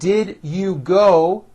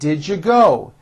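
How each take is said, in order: First: Each word is said fully and separately. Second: The words are reduced and run together.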